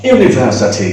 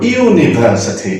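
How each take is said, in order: First: Said in the usual way. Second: ইউনিভার্সিটি said slowly with a clear "y" glide at the start; ইউনিভার্সিটি drawn out to show the opening "yoo"; slow pronunciation demo. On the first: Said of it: "একটু লক্ষ্য করো". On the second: Shown as a demonstration. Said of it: "ইউ উচ্চারণ করছে ওই ওয়াইটা চলে আসছে শুরুতে".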